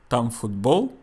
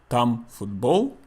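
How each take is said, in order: The two takes are said the same way.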